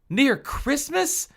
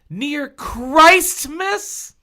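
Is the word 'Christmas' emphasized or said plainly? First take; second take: plain; emphasized. First: Christmas is said plainly, without emphasis. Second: The first half of Christmas is emphasized.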